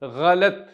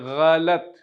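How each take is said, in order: The two takes are said the same way.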